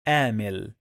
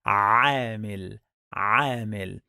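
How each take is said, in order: First: عامل said with a plain English A, like aamil; عامل with no throat sound, just an English A; wrong pronunciation. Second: عامل with the Arabic ʿayn squeezed from the throat; correct pronunciation. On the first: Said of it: "some people, they pronounce it like". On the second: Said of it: "The correct pronunciation is". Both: Shown as a demonstration.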